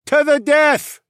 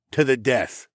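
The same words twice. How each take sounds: First: Very high, loud creature cheer; Tunglians' echo. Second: Single-voice vow near usual pitch; Mael's solemn pledge. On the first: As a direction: echo it back as a high-pitched shout. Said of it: "the Tunglians echoed". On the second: Mael's line, echoed by Tunglians. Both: Acted.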